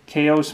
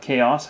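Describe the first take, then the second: First: "Chaos" said the way some others say it; other pronunciation. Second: "Chaos" said the speaker's own way; own pronunciation. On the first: Telling viewers what some people say, other pronunciation of "Chaos". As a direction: show the alternative pronunciation of "Chaos". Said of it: "Some people say Chaos". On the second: Telling viewers what they call it, own pronunciation of "Chaos". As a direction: show the personal variant of "Chaos". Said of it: "I call it Chaos". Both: Shown as a demonstration.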